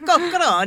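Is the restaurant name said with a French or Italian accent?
Italian. The name is said with an Italian-sounding accent. The speaker calls it wrong. "It's not Coqueronne"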